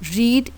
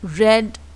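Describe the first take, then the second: First: The word has its present-tense pronunciation. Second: The word has its past-tense pronunciation. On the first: It names the action in the present. "Read is the first form" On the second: It names the action in the past. "second and third form of read"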